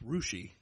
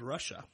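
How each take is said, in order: First: The name is said the local Ohio way. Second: The name is said the usual, as-spelled way. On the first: This is how locals in Ohio say the name. "It's pronounced Rushi in Ohio" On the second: This is how most people would read the name. "It's spelled Russia"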